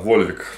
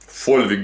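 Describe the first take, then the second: First: The name begins with a V sound. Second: The name begins with an F sound.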